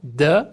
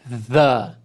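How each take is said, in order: First: The word starts with a D sound. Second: The word starts with a voiced TH sound. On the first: The speaker calls it wrong. "o T H não vai ter som de D" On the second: The speaker calls it right. "ele vai ter som do T H, que é a língua entre os dentes, e ele é o T H vozeado"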